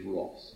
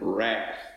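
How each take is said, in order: First: It is said with a British accent. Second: It is said with an American accent.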